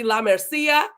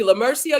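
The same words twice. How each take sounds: First: "La Mercia" with Spanish vowels, MER as "mair"; Spanish-style "La Mercia", open "lah mair-SEE-ah"; Spanish accent. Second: Said in the usual way. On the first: Shown as a demonstration. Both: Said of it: "I will put a Spanish accent".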